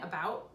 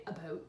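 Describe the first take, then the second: First: Said in the usual way. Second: Canadian vowel in "about", close to "a-boot"; "about" pronounced the Canadian way, rounded "ou"; slight Canadian accent. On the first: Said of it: "instead of saying about". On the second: Shown as a demonstration. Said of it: "slightly Canadian accent".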